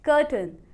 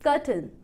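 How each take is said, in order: No difference in how they are said.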